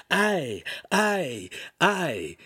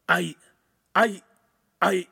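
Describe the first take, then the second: First: High, exaggerated mimicked stammer; hammed-up falling cries; mocking. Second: Halting, separated false starts; stunned stutter; stammering. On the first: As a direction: mimic his stammer with scorn. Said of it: "doubled over in mock laughter". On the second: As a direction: stammer with pauses, lost for words. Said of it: "he stammered". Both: A narrator's reading.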